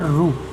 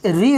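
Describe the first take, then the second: First: The sound is said like 'ru'. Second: The sound is said like 'ri'. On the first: This is how it is said in South India. "दक्षिण भारत में इसी का उच्चारण किया जाता है रू" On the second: This is how it is said in North India. "उत्तर भारत में री उच्चारण किया जाता है"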